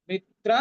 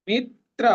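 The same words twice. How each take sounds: The two takes are said the same way.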